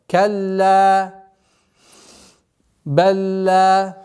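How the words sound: There is a breath pause after the first word. "Произносим выдох, вдох и продолжаем"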